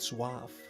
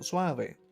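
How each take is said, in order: First: The final vowel is silent. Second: The final vowel is pronounced. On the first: This is how English speakers usually say it. The speaker calls it wrong. "It's funny how they would say it suave" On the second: This is how it is said in Spanish. The speaker calls it right. "the E, it's pronounced as E"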